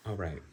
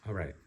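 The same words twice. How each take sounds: The two takes are said the same way.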